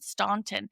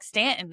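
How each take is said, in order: First: The first vowel sounds like 'aw'. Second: The first vowel sounds like 'a' in 'Stan'. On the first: This is how outsiders say the name. The speaker calls it wrong. "So I was calling it Staunton" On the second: This is how locals say the name. The speaker calls it right. "he's like Stanton"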